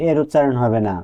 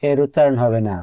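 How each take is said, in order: Both takes have the same delivery.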